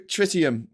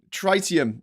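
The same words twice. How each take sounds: First: Tritium with a short i, "TRIT-ee-um"; short-i pronunciation. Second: Tritium with a long i, "TRY-tee-um"; long-i pronunciation. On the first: Recalling the isotope's name, tritium said with short i. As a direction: say tritium with first vowel as in "trip". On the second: Second go at the isotope's name, tritium with long i. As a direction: say tritium with first vowel as in "try". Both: Real, not acted. Tries two pronunciations of the word.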